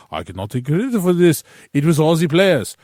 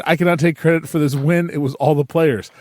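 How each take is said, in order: First: Mock French accent, slightly higher and quick; a hammy French-accented Mourinho; bad French accent. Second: Said in the usual way. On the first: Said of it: "excuse the bad Josie impersonation". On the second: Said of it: "Anyway, he said".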